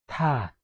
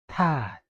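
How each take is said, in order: The two takes are said the same way.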